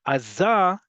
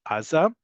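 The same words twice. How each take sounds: First: "Aza" with emphasis landing on za; stress on last syllable. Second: "Aza" with emphasis on the first A; stress on first syllable. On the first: Teacher explaining the Hebrew default, last-syllable stress on "Aza". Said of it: "on the last syllable". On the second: Teacher giving the usual borrowed-word form, first-syllable stress on "Aza". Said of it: "is not as standardized". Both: Shown as a demonstration.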